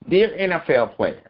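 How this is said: It is said in a put-on 'white people' voice.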